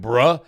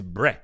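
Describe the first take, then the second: First: "bruh" with an open uh vowel, rising; wrong bruh. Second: "bruh" said as "breh", short eh vowel; daughter's bruh. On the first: Streamer showing what his daughter doesn't say, bruh with an uh. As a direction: say "bruh" as bruh, rhyming with duh. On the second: Streamer mimicking his daughter, bruh pronounced breh. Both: Shown as a demonstration. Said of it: "you have to get the intonation right".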